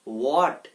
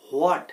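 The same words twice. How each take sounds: First: "হোয়াট" said as "wot", no h; silent h. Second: "হোয়াট" with a sounded h before the w; mispronounced h. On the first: Teacher giving learners the correct form, "হোয়াট" with silent h. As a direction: open "হোয়াট" straight on a w. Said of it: "তাহলে এটার উচ্চারণ কি হবে". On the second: Teacher showing learners the common mistake, "হোয়াট" with added h. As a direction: start "হোয়াট" on a breathed "ho" glide. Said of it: "এখানে হ আসবে না". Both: Shown as a demonstration.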